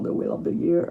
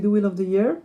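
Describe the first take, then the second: First: The Wheel of the Year in a thick French accent; French-accented English. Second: French accent. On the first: Shown as a demonstration. Reader enjoying her own French accent on The Wheel of the Year. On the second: Real, not acted. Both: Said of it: "j'aime bien comment je le dis avec mon accent".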